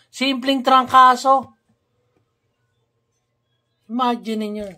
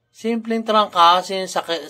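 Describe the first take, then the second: First: Exasperated outburst. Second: Said in the usual way. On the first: Real, not acted. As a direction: throw it out in disbelief at how trivial it is. Exasperated rant about the missing medicine.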